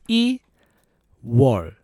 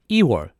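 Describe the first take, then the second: First: It is said slowly. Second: It is said fast.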